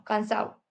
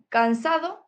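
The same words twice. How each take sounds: First: Cansado said as cansao; Andalusian dropped d. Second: Said in the usual way. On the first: Shown as a demonstration. Teacher shows the Andalusian cansado, d dropped. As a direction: drop the d in cansado. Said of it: "aquí decimos cansado". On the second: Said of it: "en vez de decir cansado".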